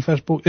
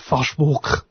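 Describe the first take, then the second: First: Said in the usual way. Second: Facebook in a mock German accent, "Fashvok". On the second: Shown as a demonstration. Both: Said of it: "pronounced in a German accent".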